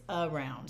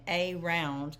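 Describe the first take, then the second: First: Said in the usual way. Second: Around as "AY-round"; long A around. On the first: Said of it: "What do we say?". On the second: Shown as a demonstration. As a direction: say around with a long A like the letter's name. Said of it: "instead of pronouncing it".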